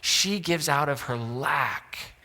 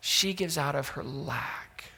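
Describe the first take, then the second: First: Slow emphasis. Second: She gives out of her lack said slowly and quietly, each word set apart; slower, softer repeat. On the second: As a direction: let the repeat sink in softly. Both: Shown as a demonstration.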